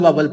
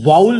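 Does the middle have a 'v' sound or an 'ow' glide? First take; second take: v sound; ow glide. First: The middle has a consonant 'v' sound. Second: The middle has a smooth 'ow' vowel glide. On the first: The speaker calls it wrong. "जैसे हमने आज तक वावल वावल पढ़ा है" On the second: The speaker calls it right. "हालांकि वो लफ्ज वाउल होता है"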